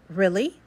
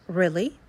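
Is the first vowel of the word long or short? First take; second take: short; short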